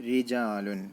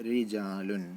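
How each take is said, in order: The two takes are said the same way.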